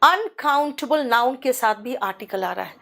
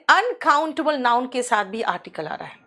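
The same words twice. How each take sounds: The two takes are said the same way.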